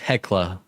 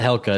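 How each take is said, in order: First: The L sound comes after the K sound. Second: The L sound comes before the K sound. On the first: The speaker calls it right. "It's Hecla" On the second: The speaker calls it wrong. "It's not Helka. I always say it wrong"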